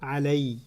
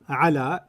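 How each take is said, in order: First: The word ends in an 'ay' sound. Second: The word ends in a long 'aa' vowel. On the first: The speaker calls it right. "it pronounces علي" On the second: The speaker calls it wrong. "it doesn't pronounce على"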